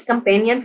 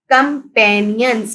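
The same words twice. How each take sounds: First: Said in the usual way. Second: companions slowly parted as com-pa-nions; careful teacher's com, pa, nions for companions; syllable by syllable. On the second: Shown as a demonstration. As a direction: sound out companions in measured beats. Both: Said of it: "Read the given multi-syllable words".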